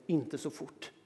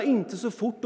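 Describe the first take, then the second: First: Said in the usual way. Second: Louder mock yell; yelling warning. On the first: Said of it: "Varje gång man säger". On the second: A kid yelling at his speeding dad, mock yell. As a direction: roar the warning with a laugh. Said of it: "Tänk dig själv, att vråla".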